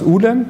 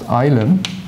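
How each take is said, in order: First: The word is said with its supposed Russian pronunciation. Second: The word is said with its usual English pronunciation. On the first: "it's a Russian word, right? And it's pronounced ulem" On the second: "in English it is usually pronounced ilum"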